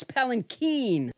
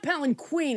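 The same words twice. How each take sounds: First: Palanquin with a hard K and a stressed, drawn-out "KEEN"; corrected palanquin. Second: Palanquin with a "kw" sound, ending like "queen"; mispronounced palanquin. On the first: Host correcting herself, palanquin stressed on final "keen". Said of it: "The accent is on the keen". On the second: Host showing the wrong way, palanquin ending in "queen". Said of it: "It's not palanquin". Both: Shown as a demonstration.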